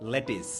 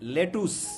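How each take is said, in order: First: The second syllable has a short 'i' vowel. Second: The second syllable has an 'oo' vowel. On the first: This is how English speakers say it. The speaker calls it right. "ইংরেজরা লেটুস বলে না, ওরা বলে কি? লেটিস" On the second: This is how it is commonly said locally. The speaker calls it wrong. "আমরা বলি হচ্ছে লেটুস"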